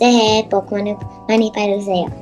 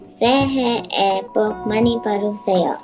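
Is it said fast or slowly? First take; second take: fast; slowly. First: It is said fast. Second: It is said slowly.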